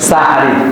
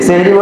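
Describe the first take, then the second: First: The first vowel is an a sound. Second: The first vowel is an e sound. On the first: The word means the pre-dawn meal. The speaker calls it right. "শুদ্ধভাবে বলার চেষ্টা করব" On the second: The word means magic. The speaker calls it wrong. "আমরা বলি সেহরি"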